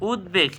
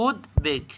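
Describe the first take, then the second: First: Said in the usual way. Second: "উদ্বেগ" as উদ্, pause, বেগ; split pronunciation. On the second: Shown as a demonstration. Teacher quizzing students, "উদ্বেগ" in two separate pieces. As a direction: break "উদ্বেগ" cleanly after উদ্. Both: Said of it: "কী হবে".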